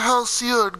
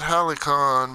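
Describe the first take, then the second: First: The word is said with an s sound. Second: The word is said with a k sound. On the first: The speaker calls it right. "I'm pronouncing it right now" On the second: The speaker calls it wrong. "that's not how you do it"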